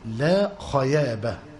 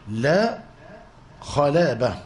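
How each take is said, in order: First: The second word is said with a Y sound. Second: The second word is said with an L sound. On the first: "كان لا يستطيع أن ينطق باللام" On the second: "فكان يبايع ويقول لا خلابة"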